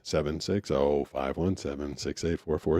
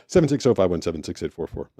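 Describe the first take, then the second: First: The number is read out slowly. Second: The number is read out quickly. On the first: The speaker calls it right. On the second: The speaker calls it wrong.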